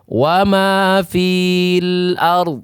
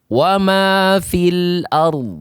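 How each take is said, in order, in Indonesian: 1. Vokal pada 'fil' panjang. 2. Vokal pada 'fil' pendek. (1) "Tidak boleh dibaca panjang lagi" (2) "maka ketika diwasal dia dibaca wa ma fil ard"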